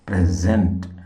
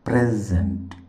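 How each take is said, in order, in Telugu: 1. ఒత్తి రెండవ సిలబుల్ పై ఉంటుంది. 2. ఒత్తి మొదటి సిలబుల్ పై ఉంటుంది. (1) "రెండవ సిలబుల్ మీద, జెంట్ మీద స్ట్రెస్ మార్క్ ఉంటుంది" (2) "మొదటి సిలబుల్ పైన స్ట్రెస్ ఉంటుంది"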